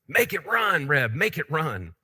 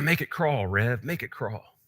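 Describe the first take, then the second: First: It is said loudly, almost shouting. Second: It is said in a small, quiet voice.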